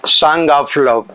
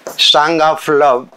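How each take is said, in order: Both takes have the same delivery.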